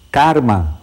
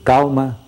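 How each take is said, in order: First: An R sound comes before the M. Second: An L sound comes before the M. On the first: It marks rural speech. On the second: It marks urban speech.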